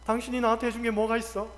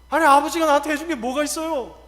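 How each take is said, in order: First: Offhand, level-voiced reproach; thoughtless reproach. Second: Loud, higher-pitched protest; child reproaching parent. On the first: Wife complaining to husband, thoughtless reproach. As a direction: toss out the complaint without thinking. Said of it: "아무 생각 없이". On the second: Acted. Child talking back to father, loud reproach. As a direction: voice a grown child's indignant complaint. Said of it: "자식이 부모에게 이야기하죠".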